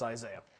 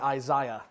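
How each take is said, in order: First: Isaiah is said in a Middle American pronunciation. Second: Isaiah is said in a European pronunciation.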